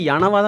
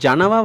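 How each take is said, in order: First: The word begins with a ya sound. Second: The word begins with a ja sound. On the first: The speaker calls it right. "யனவா தான் வரும்" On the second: The speaker calls it wrong. "ஜனவா வரக்கூடாது"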